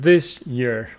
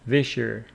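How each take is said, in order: First: The two words are said separately. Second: The words blend with an sh sound between them. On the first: "maybe you pronounce it" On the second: "if you speak fast, it is"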